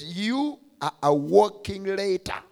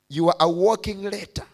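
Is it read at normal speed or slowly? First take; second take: slowly; normal. First: It is read slowly and deliberately. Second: It is read at normal speed.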